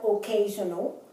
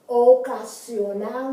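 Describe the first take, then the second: First: The word is said with English sounds. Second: The word is said with Spanish sounds. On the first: The speaker calls it wrong. "not occasional" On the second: The speaker calls it right. "as they would be pronounced in Spanish"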